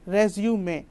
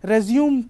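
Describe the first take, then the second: First: The word ends with a final 'ay' vowel. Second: The word ends without a final vowel. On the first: The speaker calls it right. "It's called रेज्यूमे" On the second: The speaker calls it wrong. "लोग रेज्यूमे को रेज्यूम पढ़ रहे होते हैं"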